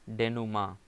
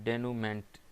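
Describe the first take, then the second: First: The word ends in 'ma' with no 'nt'. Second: The word ends with a clear 'ment' sound. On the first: The speaker calls it right. "लेकिन इसकी pronunciation है डेनुमा" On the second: The speaker calls it wrong. "देखने से तो ऐसा लग रहा होगा कि इसकी प्रोनाउंसिएशन होगी डेनूमेंट टाइप की"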